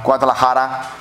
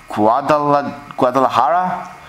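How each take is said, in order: First: "Guadalajara." said smoothly in one go, falling; confident second try at "Guadalajara."; settled pronunciation. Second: Hesitant "Guadala-, Guadalajara?" tried syllable by syllable; unsure pronunciation. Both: Shown as a demonstration. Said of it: "I'm guessing I'm pronouncing this right".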